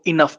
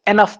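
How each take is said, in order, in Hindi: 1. पहला स्वर 'ih' जैसा सुनाई देता है। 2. पहला स्वर 'eh' जैसा सुनाई देता है। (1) "कोई इसको इनफ पढ़ता है" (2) "कोई इसको एनफ पढ़ता है"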